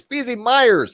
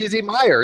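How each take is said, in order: First: Myers with an audible S at the end; corrected pronunciation. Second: Meyer said with no S at the end; imitated mispronunciation. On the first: Shown as a demonstration. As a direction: finish Myers on the S sound. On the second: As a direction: drop the final S, "MY-er". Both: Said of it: "There's an S on it".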